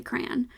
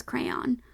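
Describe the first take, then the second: First: Crayon as "cran", said softly; one-syllable crayon. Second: Crayon as CRAY-ON; two-syllable crayon. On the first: Contrasting her own way with her parents', one-syllable crayon. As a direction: flatten crayon to one syllable rhyming with man. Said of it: "I say crayon". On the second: Telling how her parents say it, two-syllable crayon. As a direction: give crayon both vowels, cray then on. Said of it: "they say it as". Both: Shown as a demonstration.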